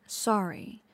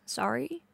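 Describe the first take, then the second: First: "Sorry" dropping at the end; dismissive echo. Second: "Sorry" rising sharply as a question; questioning echo. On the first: Girlfriend dismissing late partner's apology, "Sorry" falling. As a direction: let "Sorry" fall, no question in it. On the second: Girlfriend echoing late partner's apology, "Sorry" as rising question. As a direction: lift "Sorry" into a disbelieving question. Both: Acted.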